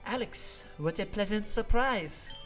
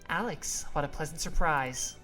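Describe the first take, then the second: First: It is said with a French accent. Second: It is said without a French accent. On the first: The speaker calls it right. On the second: The speaker calls it wrong.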